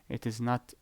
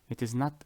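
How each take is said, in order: No difference in how they are said.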